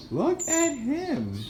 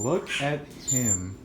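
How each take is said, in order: First: Very high, slow 'Look at him'; amused pet talk. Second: Said in the usual way. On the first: Real, not acted. Pointing out bird Juan.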